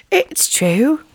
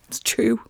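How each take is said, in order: First: Raised, sing-song take; high playful voice. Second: Unvoiced whispered take; whispering. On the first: Pretend. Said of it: "I'm just mimicking you". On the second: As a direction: breathe it as a whisper. Repeats line, first whispered.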